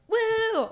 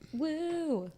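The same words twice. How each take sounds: First: It is said more loudly. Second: It is said fairly quietly.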